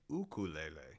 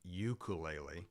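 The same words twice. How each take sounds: First: It is said the way Hawaiians pronounce it. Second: It is said the speaker's usual non-Hawaiian way. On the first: This is how people in Hawaii say it. "in Hawaii they say ukulele" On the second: This is how the word was learned growing up. "I grew up saying ukulele"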